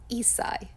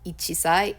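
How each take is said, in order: First: The word has a held 's' with no 'chi'. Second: The word has a full 'chi' syllable before 'sai'. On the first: The speaker calls it right. "it's isai" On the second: The speaker calls it wrong. "it's not ichisai"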